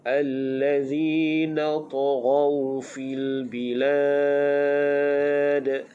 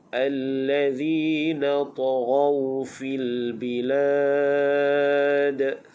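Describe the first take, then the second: The two takes are said the same way.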